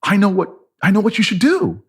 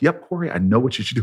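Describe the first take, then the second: First: High-pitched, awestruck realisation; as if struck by sudden divine insight; gasping revelation. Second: Measured, assured sage; wise and knowing. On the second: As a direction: say it as settled wisdom, without rushing. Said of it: "with this wise look". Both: Retold or imitated.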